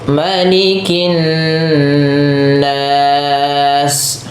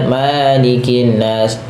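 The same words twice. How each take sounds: First: The first vowel is short. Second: The first vowel is drawn out long. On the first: The speaker calls it right. "Ini ma-nya jangan panjang" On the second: The speaker calls it wrong. "jangan malikin nas. Kadang-kadang ada yang memanjangkan ma-nya"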